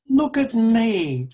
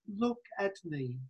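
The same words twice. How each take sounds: First: Raised, ringing look at me; loud call. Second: Very soft, hushed look at me. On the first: Preacher voicing Jesus to the congregation, loud call. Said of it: "Jesus says". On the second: Preacher voicing Jesus's closing plea to Philip, hushed. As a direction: let it fall to a near hush. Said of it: "Jesus is saying to Philip". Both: Acted.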